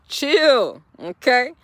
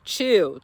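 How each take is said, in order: First: Chill, pitched up and punched louder; emphatic louder chill. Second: Said in the usual way. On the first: Shown as a demonstration. To impatient viewers, a loud emphatic "chill". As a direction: hit "chill" hard to settle them down.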